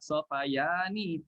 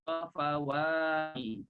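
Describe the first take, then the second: First: The middle consonant is a y sound. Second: The middle consonant is a w sound. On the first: The speaker calls it wrong. "kita tukar jadi ya juga" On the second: The speaker calls it right. "Jadilah sofawani"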